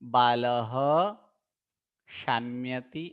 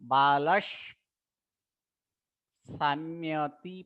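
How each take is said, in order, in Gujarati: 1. પહેલો શબ્દ શ્વાસવાળા h અવાજ થી અંત પામે છે. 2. પહેલો શબ્દ સિસકારા વાળા s અવાજ થી અંત પામે છે. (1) "વિસર્ગ ને વિસર્ગ જ રહેવા દઈએ" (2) "ડબલ સ પણ કરી શકાય"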